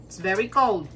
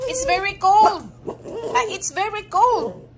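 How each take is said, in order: First: Said in the usual way. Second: Pet talk. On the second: Real, not acted. Cooing the same line at pets.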